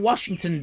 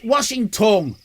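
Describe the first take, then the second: First: The word is said in its usual form. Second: The word is split into 'washing tongue'.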